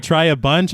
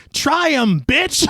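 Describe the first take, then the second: First: Said in the usual way. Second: Put-on Bronx accent, higher and yelled; mock Bronx shout. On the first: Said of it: "the way that his thick Bronx accent says it". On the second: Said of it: "I thought he said".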